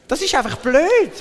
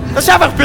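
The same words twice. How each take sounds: First: The phrase is said in a mild, ordinary voice. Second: The phrase is said loudly and forcefully.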